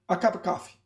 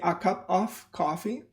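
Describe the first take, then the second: First: Small words shrink to schwas, linked in one group. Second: Each small word is said fully and separately. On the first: The speaker calls it right. "remember we have schwas and we have accents and groups" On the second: The speaker calls it wrong. "many students might say a cup of coffee"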